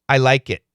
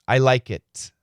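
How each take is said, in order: First: The final T is a held stop. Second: The final T is fully released. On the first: "We say, I like it. Listen carefully" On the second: "Perfect pronunciation"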